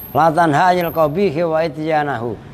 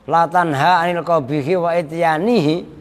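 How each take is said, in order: First: The last word ends with the vowel sounds ahu. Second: The last word ends with the vowel sounds ihi. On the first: Do not forbid evil while doing it yourself. The speaker calls it right. "dengan dibaca nasab ityana" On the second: Do not forbid evil nor forbid doing evil. The speaker calls it wrong. "kalau dibaca jer"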